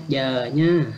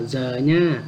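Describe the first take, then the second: First: "giờ" with a gliding y onset, drawn out; correct Ede pronunciation. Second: "giờ" with a buzzing z onset; wrong pronunciation. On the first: Teacher reminds learners of the reading, "giờ" with a y-like onset. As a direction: say "giờ" slowly, starting like "yuh". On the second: Teacher shows what not to say, "giờ" with a z sound. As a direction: say "giờ" slowly, starting like English z. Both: Shown as a demonstration. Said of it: "không đọc là giờ nha".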